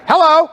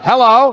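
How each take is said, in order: First: It is said in a very high voice. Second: It is said in a somewhat lower voice.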